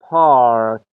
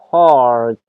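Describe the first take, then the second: Both takes have the same delivery.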